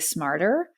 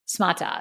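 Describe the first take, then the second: First: It is said in the speaker's plain accent. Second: It is said in an African-style accent, r dropped.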